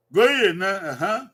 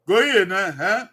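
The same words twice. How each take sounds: The two takes are said the same way.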